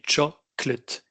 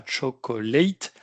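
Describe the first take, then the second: First: Slow "chocolate" as CHOC-lut, two syllables; correct schwa. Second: Slow "chocolate" as cho-ko-LATE, three full syllables; wrong full ending. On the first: Teacher corrects the learners, "chocolate" with a schwa in -lut. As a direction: split "chocolate" into strong CHOC, reduced lut. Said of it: "ce qui fait le E dans let". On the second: Teacher shows what not to say, "chocolate" ending in full -late. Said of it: "on dit pas chocolate". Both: Shown as a demonstration.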